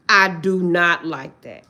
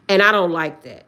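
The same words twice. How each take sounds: First: "I do not like that" slow, word by word; emphatic restatement. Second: Said in the usual way. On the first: Real, not acted. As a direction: spell out "do not" slowly and firmly.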